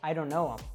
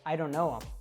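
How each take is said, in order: First: Them is reduced to em and linked. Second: The same.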